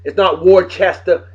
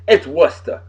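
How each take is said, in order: First: Worcester spelled out as WOR-chester, every letter said; mock the outsider's WOR-ches-ter; spelling pronunciation. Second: Worcester as WOOS-tuh, no r; local pronunciation. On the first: Masshole mocking outsiders who say Worcester as WOR-ches-ter. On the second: Masshole correcting folks, Worcester as WOOS-tuh. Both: Shown as a demonstration.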